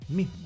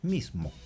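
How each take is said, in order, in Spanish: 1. La s se convierte en un sonido h suave y aspirado. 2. La s se pronuncia como un silbido claro. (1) "en un habla relajada, espontánea" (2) "pronuncian mejor el sonido S"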